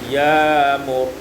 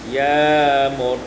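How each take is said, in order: No difference in how they are said.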